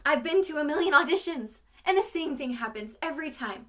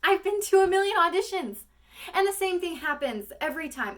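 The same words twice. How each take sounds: First: High, loud, bitter actress's lament; monologue, second take. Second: High, loud, strained audition speech; monologue, first take. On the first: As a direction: start from the moment before, voice pushed up. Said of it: "that was a little bit better". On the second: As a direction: blurt it out as a frustrated actress, voice pushed high. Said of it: "that's when the monologue starts". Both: Acted.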